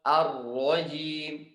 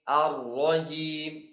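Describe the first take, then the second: No difference in how they are said.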